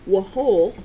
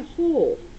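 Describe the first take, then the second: First: The word begins with a sounded W. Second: The word begins without any W sound. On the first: The speaker calls it wrong. "we don't pronounce it whole" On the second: The speaker calls it right. "We just say whole. So it's a silent W"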